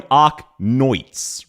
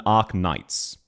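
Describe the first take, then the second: First: "Arknoits", second syllable rhyming with "quoits"; NIGHTS vowel as OI. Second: Said in the usual way. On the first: Shown as a demonstration. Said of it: "he's more going Arknoits rather than". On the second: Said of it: "rather than Arknights".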